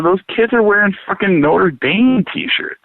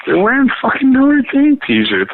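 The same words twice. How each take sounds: First: Said in the usual way. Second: Emphatic repeat. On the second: Real, not acted. Repeating the Notre Dame shirts to a friend, incredulous. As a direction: hammer it home in disbelief.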